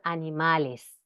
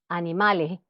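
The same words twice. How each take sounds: First: The final s is fully pronounced. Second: The final s is weakened.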